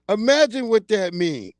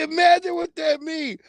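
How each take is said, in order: First: Said in the usual way. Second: Imagine what that mean raised much higher, through a laugh; laughing repeat. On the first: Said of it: "Wait, imagine what that mean". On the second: Real, not acted. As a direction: say imagine what that mean again, high and amused.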